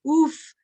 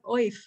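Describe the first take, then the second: First: The word is said with an oo vowel. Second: The word is said with an oy vowel. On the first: This is an accepted traditional pronunciation. The speaker calls it right. "you have a choice of pronunciation" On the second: This follows the spelling rather than native speech. The speaker calls it wrong. "But it's really not oif"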